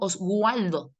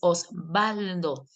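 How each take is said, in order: First: The W is pronounced like a U sound. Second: The W is pronounced like a B sound. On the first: The speaker calls it wrong. "pero yo no digo Oswaldo" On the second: The speaker calls it right. "Y a veces la doble U suena como B"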